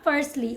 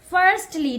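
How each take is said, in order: First: The t sound in the middle is dropped. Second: The t sound in the middle is pronounced. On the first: The speaker calls it wrong. "not firstly" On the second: The speaker calls it right. "T, you need to pronounce mitti here. Call it firstly"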